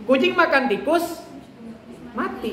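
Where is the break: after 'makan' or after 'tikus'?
after tikus. The phrase breaks after the word tikus. The cat ate the mouse, then the cat died. "Jadi kucing makan tikus, habis itu dia makan tikus, si kucing mati"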